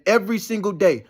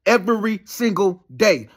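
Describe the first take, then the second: First: Said in the usual way. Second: "Every single day" drawn out slowly, word by word; emphatic repetition. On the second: Real, not acted. Repeats the phrase for emphasis.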